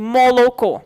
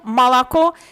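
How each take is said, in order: First: The unstressed vowels sound like o. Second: The unstressed vowels sound like a. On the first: This is how Volga region speakers say it. "en la región del Volga sería" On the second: This is how Moscow speakers say it. "es el dialecto típico de Moscú"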